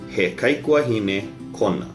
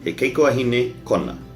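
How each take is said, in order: First: It is said at a slower pace. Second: It is said at a faster pace.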